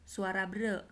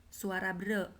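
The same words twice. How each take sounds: Both takes have the same delivery.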